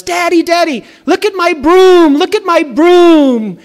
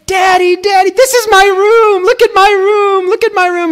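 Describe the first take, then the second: First: Put-on "broom" for "room", high excited child voice; child says "look at my broom" with a b before room; mispronounced room. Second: Put-on very high, loud little girl squeal; excited child shout. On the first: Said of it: "kids are very apt to mispronounce words". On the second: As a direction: squeal it like a thrilled toddler. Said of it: "she gets so excited".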